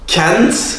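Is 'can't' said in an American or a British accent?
American. It is said in an American accent, like 'kent'. "Can't Amerika"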